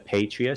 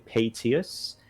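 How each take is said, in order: First: There is an r sound after the t. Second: There is no r sound after the t. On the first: The speaker calls it wrong. "I actually called this character Patrius several times" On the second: The speaker calls it right. "It's actually Patius"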